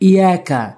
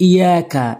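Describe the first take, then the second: No difference in how they are said.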